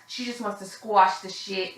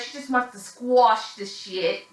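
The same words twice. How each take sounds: First: Said in the usual way. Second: A slow, hammed-up New York accent; bad New York accent. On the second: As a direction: mimic Gina's New York accent, badly and slowly. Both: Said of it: "That was my worst New York accent ever".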